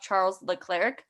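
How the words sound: The name is said with English pronunciation. "the English pronunciation of"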